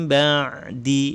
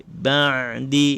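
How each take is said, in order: No difference in how they are said.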